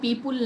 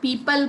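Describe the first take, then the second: First: The second syllable sounds like 'pul'. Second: The second syllable sounds like 'pal'. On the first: The speaker calls it wrong. "पीपुल नहीं बोलते हैं" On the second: The speaker calls it right. "पीपल बोलते हैं"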